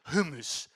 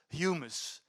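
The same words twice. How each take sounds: First: Humus said hoo-mus with no y sound; Latin humus. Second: Humus said hyoo-mus with a y glide; English humus. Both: Shown as a demonstration. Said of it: "Latin for earth".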